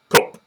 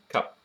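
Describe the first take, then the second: First: The vowel sounds Northern English, rounded like 'cuhp'. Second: The vowel sounds posh, between 'a' and 'e'. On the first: The speaker calls it wrong. "not in the cup sort of Northern English" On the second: The speaker calls it right. "sort of halfway between the A and an E"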